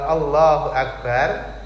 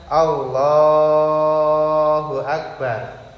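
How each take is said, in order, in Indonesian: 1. Vokal dalam Allah dibaca pendek. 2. Vokal dalam Allah dibaca panjang. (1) "niku qasar saja, dua harokat" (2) "kalau jenengan panjangkan"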